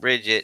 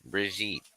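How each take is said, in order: First: The name is stressed on the first syllable. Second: The name is stressed on the second syllable. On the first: The speaker calls it wrong. "It's not Bridget" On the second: The speaker calls it right. "it's Brigitte"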